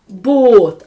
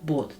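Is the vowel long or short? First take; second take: long; short. First: The vowel is held long. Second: The vowel is cut short. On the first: The speaker calls it right. "Довгим буде голосний звук також у разі подвоєння літер" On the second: The speaker calls it wrong. "А не"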